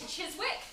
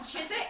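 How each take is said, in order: First: The name is said following its spelling. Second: The name is said with letters dropped. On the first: The speaker calls it wrong. "because it's spelled C H I S W I C K, I was convinced for ages" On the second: The speaker calls it right. "not Chiswick"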